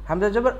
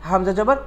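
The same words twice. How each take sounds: No difference in how they are said.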